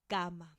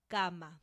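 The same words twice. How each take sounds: No difference in how they are said.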